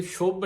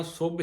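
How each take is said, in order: First: ਸ਼ੁਭ with sh, shubh; wrong sound. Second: ਸੁਭ with plain s, subh; right sound. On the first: Teacher showing the sangat ਸ਼ੁਭ said wrongly with sh. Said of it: "ਇਹਨੂੰ ਸ਼ੁਭ ਨਹੀਂ ਕਹਿਣਾ". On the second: Teacher showing the sangat ਸੁਭ said with plain s. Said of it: "ਸੁਭ ਹੀ ਕਹਿਣਾ ਆ". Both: Shown as a demonstration.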